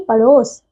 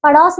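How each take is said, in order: First: पड़ोस with a closed "o": paros; correct pronunciation. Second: पड़ोस with an open "au": paraus; mispronunciation. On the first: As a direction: round the vowel of पड़ोस to "o". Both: Shown as a demonstration. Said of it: "पड़ोस नहीं".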